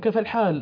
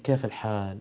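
First: It is said in a loud, raised voice. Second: It is said in a soft, calm voice. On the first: The speaker seems agitated or annoying to others. "يتكلمون بصوت مرتفع" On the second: The speaker seems relaxed and unhurried. "هادين رايقين"

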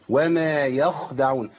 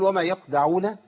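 First: The kh sound is clearly audible. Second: The kh sound is lost almost completely. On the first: The speaker calls it right. "لابد من صوت الايه؟ الخاء الساكنه" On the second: The speaker calls it wrong. "وضيع الخاء خالص"

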